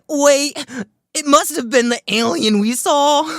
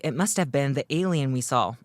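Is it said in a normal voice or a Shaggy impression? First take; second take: Shaggy impression; normal voice. First: It is said in an impression of Shaggy. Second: It is said in the speaker's normal voice.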